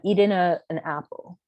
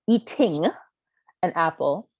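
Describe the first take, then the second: First: The final g of eating is dropped. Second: The final g of eating is pronounced. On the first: This is how the speaker and friends naturally talk. The speaker calls it wrong. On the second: This is the form the speaker was told to use. The speaker calls it right.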